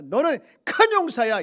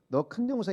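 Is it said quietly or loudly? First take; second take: loudly; quietly. First: It is said loudly and forcefully. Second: It is said quietly and weakly.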